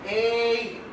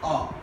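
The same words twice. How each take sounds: First: The word has its full vowel. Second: The word has a reduced vowel. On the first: "the strong form of the A is" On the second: "its weak form is"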